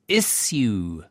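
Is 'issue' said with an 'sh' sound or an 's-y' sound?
s-y. The middle sounds like 's' followed by 'y'. This is the pronunciation taught at school. The speaker calls it right. "It's issue"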